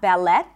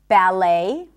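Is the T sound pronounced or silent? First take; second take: pronounced; silent. First: The T sound is pronounced. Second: The T sound is not pronounced. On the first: The speaker calls it wrong. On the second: The speaker calls it right.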